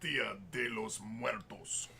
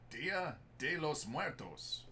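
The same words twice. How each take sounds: First: It is said in a put-on deep voice. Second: It is said in a normal voice.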